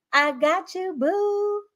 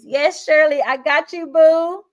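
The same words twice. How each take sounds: First: Much higher, teasing lilt on boo; affectionate teasing repeat to a viewer; playful sing-song. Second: Louder and higher, delighted; cheerful call-out to a fan; excited shout-out. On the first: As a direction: toss it back sweetly, half laughing. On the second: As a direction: hype up a viewer by name. Answering viewer Shirley's chat comment. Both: Real, not acted.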